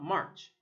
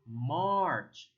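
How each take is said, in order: First: The vowel is not a long ah sound. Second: The vowel is a long ah sound. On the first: The speaker calls it wrong. "It's not March" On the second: The speaker calls it right. "but rather March"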